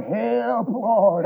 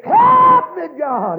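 First: Said in the usual way. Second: High, loud, drawn-out plea; crying out. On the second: Retold or imitated. Preacher recalling sinking in the pit of sin, high holler. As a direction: soar up high, then drop on the last word. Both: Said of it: "friend, I cried".

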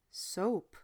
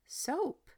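First: Said in the usual way. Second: Surprised. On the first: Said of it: "Gordon echoed her". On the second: A narrator's reading. Woman tasting, doubtful.

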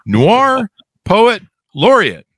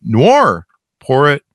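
First: "Noir poet laureate" very slow, each word high and punched out; careful, emphatic retry. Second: Said in the usual way. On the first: Real, not acted. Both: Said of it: "let me see if I can get this right".

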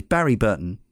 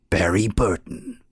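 First: Said in the usual way. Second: Slow, put-on game intro announcer; intro man's voice. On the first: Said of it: "cannot do it without saying it". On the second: Podcast host cannot resist mimicking the game's intro, announcer voice. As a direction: draw the name out like an intro announcer. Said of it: "saying it in the intro man's voice".

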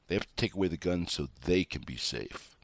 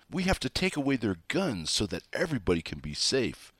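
First: Said in the usual way. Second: Higher, mimicking an alarmed do-gooder; lightly hammed-up plea for safety; mock frantic pleading. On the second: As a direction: parrot their worry in a raised, mocking voice. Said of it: "this frantic screaming about".

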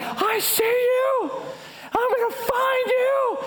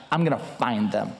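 First: Comic, very high drawn-out holler; high-pitched mad threat. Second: Low, determined growl of a vow; grim vow. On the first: Soaked, mad man calls to fleeing culprits, high-pitched. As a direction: call it out way up high, stretching the words. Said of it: "My voice getting higher and higher". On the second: Husband vows to wife he'll catch culprits, low and grim. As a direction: say it deep down, deadly resolved. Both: Retold or imitated.

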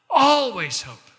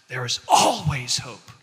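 First: Always hope cried out higher and louder, slow; emphatic cry. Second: Said in the usual way. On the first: Real, not acted. Pastor crying out to a hopeless listener, loud and high.

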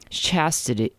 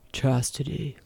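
First: Said in the usual way. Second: Hint of a man's rumbling voice; soft, lightly voiced low rumble. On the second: A narrator's reading. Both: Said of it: "low rumble of his voice repeats".

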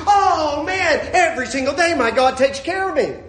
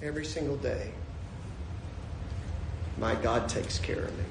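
First: Loud, high-pitched joyful exclamation; exultant. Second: Soft, low, reverent statement; quietly sincere. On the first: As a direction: proclaim it, bursting with joy. Acted exultation, then repeated softly. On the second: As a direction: let it sink in tenderly, with a long pause. Same words repeated softly after exultation. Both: Acted.

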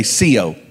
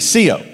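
First: Said in the usual way. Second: "Sio" said higher and firmer, meant; emphatic "Sio" greeting; with conviction. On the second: Shown as a demonstration. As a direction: say "Sio" like you really mean it. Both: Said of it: "Say it like you mean it".

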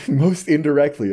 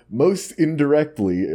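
First: Said in the usual way. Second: Flat robotic reading voice. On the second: Shown as a demonstration. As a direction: read it like a robot. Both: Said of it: "forget the robot voice".

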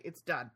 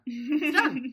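First: Said in the usual way. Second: "done" hard beklemtoond, hoger en luider; emphatic. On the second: Shown as a demonstration. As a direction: hit "done" loud and final. Repeats for emphasis.

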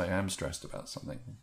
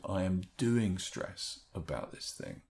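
First: Said in the usual way. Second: Slow, with doing leaned on; stress on doing. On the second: Shown as a demonstration. Coach showing the new phrasing, slow and deliberate. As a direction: say "I am doing stress about this thing" with a gentle push on doing. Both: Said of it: "and then change it to".

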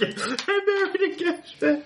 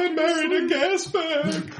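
First: High slow mock wail; imitating wife voice. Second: High, slow wailing wife; whiny wife voice. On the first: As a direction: echo the wife's wail, high. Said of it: "He just said gas bag". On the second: Pretend. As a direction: wail it like a fed-up wife.

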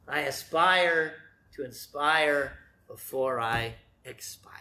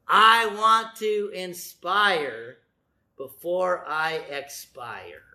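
First: Drawn out, almost reverent; hushed slow rhyme; slow slogan. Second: Slow, drawn-out saying; slow slogan. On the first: Slogan repeated in full. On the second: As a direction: let each word land slowly. Preacher savoring his slogan. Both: Shown as a demonstration.

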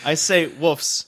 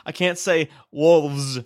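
First: Wolves said as woofs, no L, slow; slow L-less wolves; Ohio wolves. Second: Slow, wolves said with the L; careful wolves. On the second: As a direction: stretch out wolves with a full L. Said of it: "I can't say it in passing". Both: Shown as a demonstration.

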